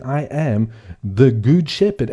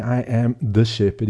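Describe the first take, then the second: First: Slow, with good weighted and falling; stress on good. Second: Said in the usual way. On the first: Shown as a demonstration. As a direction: lean on the word good, slowly. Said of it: "the emphasis is on the word good". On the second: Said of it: "He's not saying".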